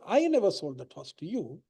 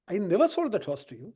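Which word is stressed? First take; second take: I; never. First: The word 'I' carries the main stress. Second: The word 'never' carries the main stress. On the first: Someone else sold the horse. "I'm saying it wasn't me, it was somebody else" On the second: Selling horses is not something the speaker does. "It's not a business to sell horses"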